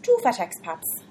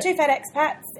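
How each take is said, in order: First: It is said in an Irish accent. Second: It is said in a New Zealand accent. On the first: "your best Irish two fat expats?" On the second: "Your best Kiwi"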